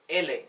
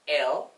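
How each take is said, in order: First: The letter name ends in a vowel sound. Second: The letter name ends in a consonant sound. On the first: This is the Spanish way. "dalam bahasa Spanyol kita mengucapkannya" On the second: This is the Indonesian way. "dalam bahasa Indonesia kita menyebutnya"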